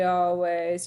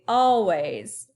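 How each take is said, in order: First: The stress is on the second syllable. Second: The stress is on the first syllable. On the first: The speaker calls it wrong. "You don't say always" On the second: The speaker calls it right. "you say always. You say the first chunk, all, a little bit louder"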